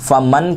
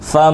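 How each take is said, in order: First: The n sound is pronounced fully and clearly. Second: The n sound is hidden in a nasal hum. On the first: The speaker calls it wrong. "मन नहीं पढ़ेंगे। मन पढ़ेंगे तो ये ज़ाहिर हो जाएगा" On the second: The speaker calls it right. "गुन्ने की आवाज़ निकालेंगे"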